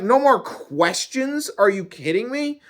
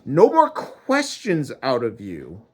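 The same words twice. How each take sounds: First: Incredulous. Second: Mad. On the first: Man protesting God's ban on questions, incredulous. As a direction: throw it back in squeaky disbelief. Acted incredulous reply to God. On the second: God forbidding the man any questions, angry. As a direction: shut down all questions crossly. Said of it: "he was mad". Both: Acted.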